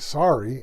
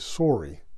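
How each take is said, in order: First: It is said with an American accent. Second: It is said with a Canadian accent. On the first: "Americans say sorry" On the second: "Canadians say sorry"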